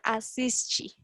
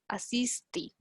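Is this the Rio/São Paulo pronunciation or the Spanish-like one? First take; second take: Rio/São Paulo; Spanish-like. First: It is pronounced in the Rio/São Paulo accent. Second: It is pronounced the way Spanish speakers would. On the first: "como nós estamos aprendendo o sotaque... do Rio de Janeiro, de São Paulo, então vamos pronunciar assiste" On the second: "Há regiões de Brasil que pronuncian assiste, assiste, no, así como nosotros la pronunciamos"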